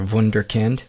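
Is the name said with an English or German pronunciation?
German. The name is said with a German pronunciation.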